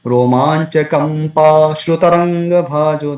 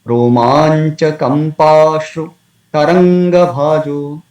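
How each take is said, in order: First: Chanted "Kampa Shrutaranga" with shru joined to taranga; wrong word split. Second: Chanted "Romancha Kampashru", pause, "Taranga Bhajo"; slow chant keeping "Kampashru" as one word; correct word split. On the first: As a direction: run "Shrutaranga Bhajo" together as one phrase. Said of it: "There is no such word". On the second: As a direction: break after shru in "Kampashru". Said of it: "breaks it in this way". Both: Shown as a demonstration.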